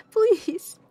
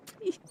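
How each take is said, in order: First: High, loud exasperated please. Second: Breathy unvoiced please, higher; whispered please. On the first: Begging chat to stop the mango joke, a loud high please. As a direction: cry out in mock despair. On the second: Begging chat to drop the joke, a whispered please. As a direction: plead under the breath. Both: Real, not acted. Whispered then loud plea.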